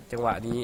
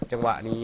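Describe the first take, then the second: No difference in how they are said.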